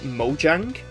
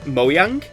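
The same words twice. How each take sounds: First: The J is said as a J sound. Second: The J is said as a Y sound. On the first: This is how the developers say it in interviews. "But I do know in a lot of the developer interviews they do actually pronounce it" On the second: This is how it would be said in Swedish. "Scandinavian languages pronounce a J as a Y sound. So I believe in Swedish"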